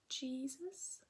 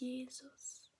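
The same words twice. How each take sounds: First: The first syllable starts with an English 'G' sound. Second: The first syllable is said the German way. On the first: "pronounced differently from Jesus, G" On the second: "to Jesus. Pronounce this first syllable a little bit different"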